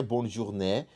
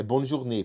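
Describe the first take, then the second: First: "journée" wrongly ending in an open eh; "bonne journée" ending like Portuguese "né"; open final E. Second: "journée" ending in a closed ay sound without glide; "bonne journée" with a closed é at the end; closed final E. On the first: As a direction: mispronounce "journée" with a wide-open final vowel. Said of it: "mas aqui não é bonne journée". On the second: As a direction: correct French "journée", tight final ê. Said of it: "é bonne journée". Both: Shown as a demonstration.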